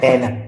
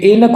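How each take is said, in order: First: ऐनक with an open ai vowel; correct vowel. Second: ऐनक with a close "ay" vowel; wrong vowel. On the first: Teacher correcting it, ऐनक with open ai. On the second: Teacher reading the wrong spelling, ऐनक as "ay-nak". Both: Shown as a demonstration. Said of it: "जबकि ये है ऐनक".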